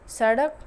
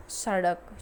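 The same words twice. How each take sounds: First: सड़क with a hard ड, rising and louder; सड़क as the wrong example, lifted at the end; wrong pronunciation. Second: सड़क with the flapped ड़, falling; सड़क said correctly, closing the pair; correct pronunciation. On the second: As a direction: give सड़क the proper ड़ flap, falling tone. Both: Shown as a demonstration. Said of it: "अशुद्ध है और सड़ना शुद्ध है".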